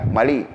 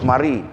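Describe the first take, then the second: First: The middle consonant is an L sound. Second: The middle consonant is an R sound. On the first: "Cina mana ada ar kan?" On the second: "Dia tak boleh sebut mari"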